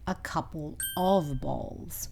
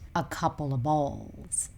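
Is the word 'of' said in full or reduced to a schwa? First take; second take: full; schwa. First: The word 'of' is said in full. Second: The word 'of' is reduced to a schwa. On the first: "This should be a couple of bowls" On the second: "So of changes to a, the schwa sound"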